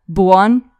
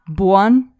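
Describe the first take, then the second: No difference in how they are said.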